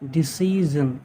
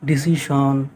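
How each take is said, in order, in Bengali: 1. শেষাংশটি 'zhun' এর মতো শোনায়। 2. শেষাংশটি 'shon' এর মতো শোনায়। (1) "ৰিয়েল যিটো প্ৰনাউন্সিয়েশ্যন ... এছ আই অ' এন জন জন" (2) "অসমীয়াত আমি ... শ্যন বুলি উচ্চাৰণ কৰোঁ"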